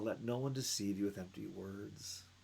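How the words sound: It is read in a soft, gentle voice. The speaker calls it wrong. "I don't know how to read these words softly"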